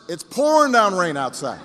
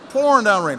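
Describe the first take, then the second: First: Said in the usual way. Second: Pouring punched louder with a falling tune; stress on pouring. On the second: Acted. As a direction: lean hard on Pouring, then let it drop. Repeats weather line for emphasis.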